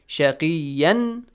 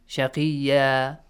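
First: The word ends with an n sound. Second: The word ends with a long a vowel. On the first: The recitation runs on without stopping. "the one ends with" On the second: The reciter stops at the end of the verse. "you change it to Alif Mat"

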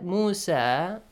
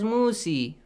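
First: The word ends with an 'ah' vowel. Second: The word ends with an 'ee' vowel. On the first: The speaker calls it right. "That Musa" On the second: The speaker calls it wrong. "You might think like we have to read it as Musi"

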